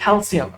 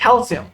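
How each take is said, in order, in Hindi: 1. बीच का व्यंजन 's' ध्वनि है। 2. बीच का व्यंजन 's' ध्वनि है।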